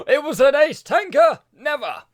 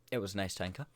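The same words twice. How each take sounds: First: Gasp, then loud high feigned amazement; mock shock. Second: Said in the usual way. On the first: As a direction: exclaim it with hammed-up disbelief, high and loud. Mock surprise at his own spoiler.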